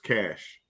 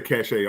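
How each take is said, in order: First: The word has one syllable, like 'cash'. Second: The word has two syllables, ending in 'ay'. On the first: The speaker calls it right. "I've been told it's cash" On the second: The speaker calls it wrong. "I say cachet also"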